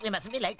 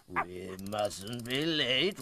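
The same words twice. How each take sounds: First: Higher, brisk clock voice; back up to speed. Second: Slow, drawn-out clock voice. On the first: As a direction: pick up speed and pitch. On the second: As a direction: drag it out slowly like a stiff clock. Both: A narrator's reading. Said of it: "Slowly the clock began to speak again".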